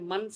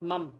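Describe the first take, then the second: First: The syllable ends with an n sound. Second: The syllable ends with an m sound. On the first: The speaker calls it wrong. "एन का साउंड हमने मन से नहीं पढ़ना" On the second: The speaker calls it right. "एम यू एम"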